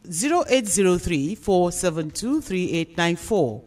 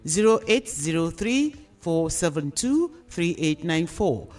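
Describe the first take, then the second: No difference in how they are said.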